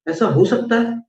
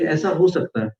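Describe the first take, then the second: First: It is said as an incredulous, rhetorical question. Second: It is said softly and calmly, as a statement. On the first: This can never happen. "अर्थात कदापि नहीं हो सकता।" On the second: This is possible. "देखिए आप धीमे से बोलिए"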